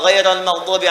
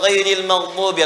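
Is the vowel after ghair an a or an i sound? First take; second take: a; i. First: The vowel after ghair is an a sound. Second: The vowel after ghair is an i sound. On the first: "atau dibaca ghaira" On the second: "ghairil maghdubi atau"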